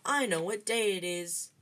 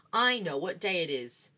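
First: Higher jeering sing-song; jeering boyish chant; sing-song taunt. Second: Louder repeated taunt; insistent, louder jeer; Dudley. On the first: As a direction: taunt him in a childish lilt. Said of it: "sang Dudley". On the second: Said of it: "Dudley repeated". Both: A narrator's reading.

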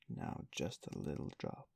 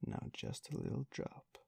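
First: Gently coaxing, a little lower; wheedling the beadle, lower and coaxing; persuasive. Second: Coaxing, pitched higher; pressing the beadle with a higher wheedle; persuasive. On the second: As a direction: lift the coax up into a wheedle. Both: A narrator's reading. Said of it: "said Miss Mann persuasively".

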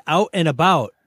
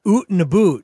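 First: "Out and about" quoted back, picked out for its vowels; imitating co-host's pronunciation. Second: "oot and a boot" with long oo in place of ow; exaggerated Canadian vowels. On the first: Host quotes co-host to prove he has an accent, teasing imitation. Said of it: "he said, "Out and about". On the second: Host mocks co-host's accent, exaggerated oo pronunciation. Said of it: "Did you hear him say".

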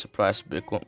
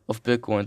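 First: Accidental slip into Scottish; a hint of a Scottish accent. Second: Said in the usual way. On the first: Real, not acted. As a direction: drift into a light Scottish lilt. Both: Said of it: "Why am I doing a Scottish accent?".

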